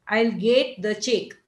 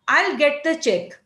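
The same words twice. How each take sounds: First: Slow Indian English, get as gate, check drawn out; Indian English accent. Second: Said in the usual way. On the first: Shown as a demonstration. Teacher imitating an Indian speaker's Indian English accent. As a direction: stretch get and check the Marathi way. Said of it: "an Indian person might, uh, say this like this". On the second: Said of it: "Now, for example".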